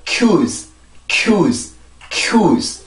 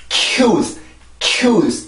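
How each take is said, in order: First: Cues with a brief k passing straight into yooz; weight on the glide of cues, k only hinted; light K onset. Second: Cues with a heavy k burst; over-strong K onset. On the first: Teacher shows the proper cues, light K. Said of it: "이렇게 소리가 만들어지죠". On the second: Teacher shows the wrong cues, over-strong K. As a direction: lean on the k in cues, overdoing it. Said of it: "이런 소리가 아니라". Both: Shown as a demonstration.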